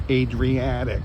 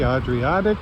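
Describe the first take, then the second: First: Adriatic with English vowels, AY-dree-AT-ic, falling at the end. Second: Adriatic said the Italian way, broad ah sounds, AH-dree-AH-tic; Italian-style Adriatic. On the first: Shown as a demonstration. Tourist fixing the sea's name into English, careful Adriatic. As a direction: correct yourself to ay-dree-AT-ic. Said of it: "How do we say it in English?". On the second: Real, not acted. Tourist naming the sea on the promenade, Italian-style Adriatic. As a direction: let Adriatic slip out as ahd-ree-AH-tic. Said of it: "having problems saying it in English".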